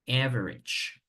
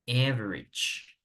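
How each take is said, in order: Both takes have the same delivery.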